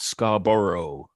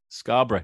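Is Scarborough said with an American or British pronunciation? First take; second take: American; British. First: It is said with an American pronunciation. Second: It is said with a British pronunciation. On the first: The speaker calls it wrong. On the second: The speaker calls it right.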